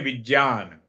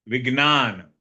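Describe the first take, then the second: First: It is said the Arya Samaj way. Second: It is said the Gujarati speakers' way.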